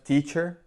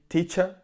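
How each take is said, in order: First: It is said in a non-British accent. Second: It is said in a British English accent. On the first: "instead of teacher. Like I say" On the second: "here uh, they would say teacher"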